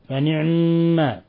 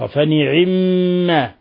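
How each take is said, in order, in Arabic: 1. الحرف الأوسط ساكن قبل الميم المشددة. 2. تأتي بعد الحرف الأوسط كسرة خالصة. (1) "يسكن العين ثم يشدد الميم فنعما، هكذا" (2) "في كسر العين كسر خالص"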